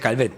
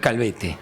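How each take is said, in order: First: The name ends in a consonant sound. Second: The name ends in a vowel sound. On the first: The speaker calls it wrong. "Yo le decía Calvet" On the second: The speaker calls it right. "pero es Calvete"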